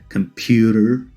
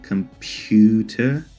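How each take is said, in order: First: It is said in an American accent. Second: It is said without an American accent. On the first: "in an American accent" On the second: "as when I say computer"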